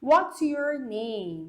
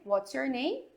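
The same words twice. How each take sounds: First: "what's your name" drawn out very slowly; slow demo question. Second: Said in the usual way. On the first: Shown as a demonstration. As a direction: say each word slowly for learners. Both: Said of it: "Então olha aqui".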